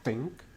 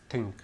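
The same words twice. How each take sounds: First: "think" with a clear th, tongue between the teeth; correct th in think. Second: "think" mispronounced with a t, like "tink"; learner's mistake on "think", t in place of th; weak th in think. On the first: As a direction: say "think" carefully, starting on th as in "thin". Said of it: "they would pronounce the word think". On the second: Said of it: "very weakly. For example, they would pronounce". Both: Shown as a demonstration.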